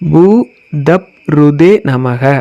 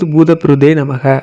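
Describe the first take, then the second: First: The name is broken into separate syllable chunks. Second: The name is said smoothly as one joined word. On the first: "இதை எப்படி உச்சரிக்கணும் அப்படின்னா" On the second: "அதை சேர்த்து வரும்போது"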